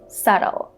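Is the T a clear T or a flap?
flap. The T is a soft flap. "in American English, people would say subtle. So they would make this T sound into a flap T sound"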